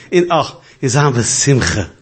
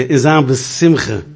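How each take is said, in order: First: Said in the usual way. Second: In Sam Simcha said slow, each word drawn out; slow, deliberate. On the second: Retold or imitated. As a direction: spell out in Sam Simcha slowly and clearly. (in Sam Simcha langsam und deutlich) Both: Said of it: "Ich sag, ich denke".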